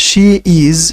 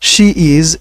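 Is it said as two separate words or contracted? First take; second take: separate; separate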